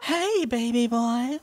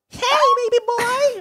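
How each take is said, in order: First: It is said in a relaxed put-on voice. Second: It is said in an eager put-on voice.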